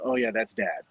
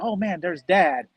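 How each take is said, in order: First: It sounds cold and resentful. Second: It sounds glad and warm.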